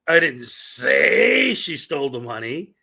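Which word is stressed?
say. The word 'say' carries the main stress. Those words were never spoken aloud. "which means that those words never came out of my"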